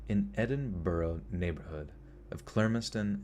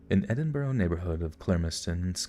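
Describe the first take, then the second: First: The phrase is spoken slowly. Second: The phrase is spoken quickly. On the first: The speaker calls it right. "There we go" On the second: The speaker calls it wrong. "that was too fast"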